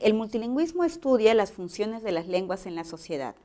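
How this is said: The pitch falls at the end. It is a statement. "esta oración es una afirmación y su tono es descendente"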